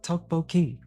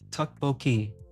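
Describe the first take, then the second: First: The first syllable has a rounded 'aw' vowel. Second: The first syllable has a short 'uh' vowel. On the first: The speaker calls it right. "it's tok boki is what it's what she's actually saying" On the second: The speaker calls it wrong. "It says T U K on it sounds like"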